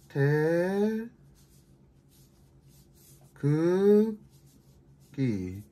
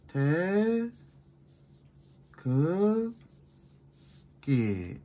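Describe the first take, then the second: First: The stress is on the middle syllable. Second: The stress is on the last syllable.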